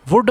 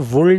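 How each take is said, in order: First: The word is said without an L sound. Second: The word is said with an L sound. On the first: The speaker calls it right. "वुड में एल silent होता है" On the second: The speaker calls it wrong. "कभी भी ये गलती नहीं करनी, वुल्ड नहीं बोलना इसको"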